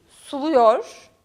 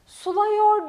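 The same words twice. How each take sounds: First: "suluyor" said with a narrow u; correct pronunciation. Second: "Suluyor" as "sulayor", slow and high; wrong pronunciation. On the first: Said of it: "Suluyor değil, suluyor". ("suluyor" doğru telaffuz, dar u ile) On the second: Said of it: "Suluyor değil". ("Suluyor" yanlış, "sulayor" diye yavaşça) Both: Shown as a demonstration.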